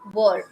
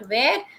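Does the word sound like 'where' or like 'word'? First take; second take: word; where. First: The vowel sounds like the one in 'word'. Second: The vowel sounds like the one in 'where'. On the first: The speaker calls it right. "This is word, right?" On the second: The speaker calls it wrong. "Many people they pronounce it as where, but actually this is not where"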